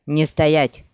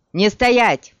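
First: Loud, firm order in a usual pitch; firm command. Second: Louder, raised urgent shout; shouted order. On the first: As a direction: order them on firmly. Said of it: "утихомирил её Геральт". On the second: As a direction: shout it to get them moving. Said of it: "крикнул он". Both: A narrator's reading.

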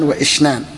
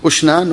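First: "وإشنان" with i after wa, "wa-ishnan"; كسرة على الهمزة. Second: "أشنان" with initial u, "ushnan"; ضمة على الهمزة. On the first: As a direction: give "وإشنان" a short i on the hamza. (نطق "وإشنان" بكسر الهمزة) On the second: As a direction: say "أشنان" starting on a short u. (نطق "أشنان" بضم الهمزة) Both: Shown as a demonstration. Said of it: "بضم الهمزة وكسرها".

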